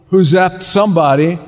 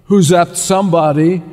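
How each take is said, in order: Both takes have the same delivery.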